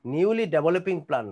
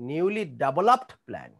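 First: Said in the usual way. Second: Developed stressed, said slowly; slow and clear on developed; teacher giving the corrected developed; corrected phrase, slow. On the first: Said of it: "না". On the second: Shown as a demonstration. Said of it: "Newly developing plan না".

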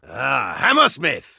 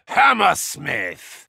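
First: Said in the usual way. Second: Drawn-out shout. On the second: Acted. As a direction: stretch the name out in a shout. Calling a teammate.

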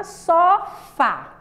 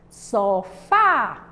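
First: Said in the usual way. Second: "Sofá" with a long, forceful "fá"; stress on FÁ. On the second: Shown as a demonstration. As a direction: lean hard on the last syllable of "Sofá". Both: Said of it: "a gente pronuncia com mais força".

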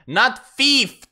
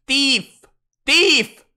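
First: Thief said as "feef", high and loud; wrong pronunciation rejected. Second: Thief as a loud, high "teef"; insisted pronunciation. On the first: Streamer objecting to the video's version, thief as "feef", loud rejection. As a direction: exclaim thief with an f at the start, rejecting it. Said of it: "start fucking pronouncing, like, words differently". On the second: Streamer correcting the pronunciation video, thief as "teef", loudly insisted. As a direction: shout thief with a hard t, louder the second time. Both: Shown as a demonstration.

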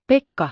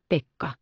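First: Pekka shouted high and loud; calling out. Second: Said in the usual way. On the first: A narrator's reading. Girl calling the goatherd to see the sunset, loud call. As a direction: call Pekka from across the pasture. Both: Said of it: "kavahti hän seisoalleen ja huusi".

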